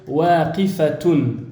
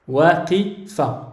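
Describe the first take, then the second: First: The final ending -atun is fully pronounced. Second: The word ends at -a, with the ending dropped. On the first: This is the full form beginners should use. "c'est important de le prononcer et de dire waqifatun" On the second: "ils ne prononcent pas le ta marbuta, mais ils vont dire waqifa"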